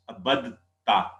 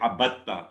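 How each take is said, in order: First: A d sound is said before the t. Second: The d merges into a doubled t sound. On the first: The speaker calls it wrong. "we would try to join ba with dal, it will become difficult to pronounce" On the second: The speaker calls it right. "they say abatta"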